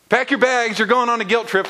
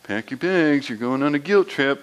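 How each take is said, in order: First: Higher, louder singsong tease; hammed-up mom warning aimed at God; mock guilt-trip call. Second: A hint of a mom's teasing singsong; lightly voiced mom calling from the background. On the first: Preacher applying mom's line to God, higher mock tease. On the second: Mom teasing the guilt-tripping brother, lightly voiced. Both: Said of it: "my mom would often be in the background going".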